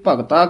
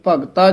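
First: The middle consonant is a breathy dh sound. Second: The middle consonant is a plain t sound. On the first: The speaker calls it wrong. "ਧੱਦਾ ਲਾ ਜਾਂਦੇ ਹਨ" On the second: The speaker calls it right. "ਇਹ ਤੱਤੇ ਨਾਲ ਬੋਲਣਾ ਹੈ"

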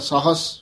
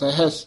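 First: The first vowel is long, said as saahas. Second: The first vowel is short, said as sahis. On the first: The speaker calls it wrong. "ਨਹੀਂ ਤਾਂ ਸਾਹਸ, ਫਿਰ ਸਾਰੇ ਪਾਠ ਬਦਲ ਜਾਣਗੇ" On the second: The speaker calls it right. "ਜਿਵੇਂ ਸਹਿਸ ਹੈ ਸੱਸਾ ਹਾਹ ਸੱਸਾ ਸਹਿਸ"

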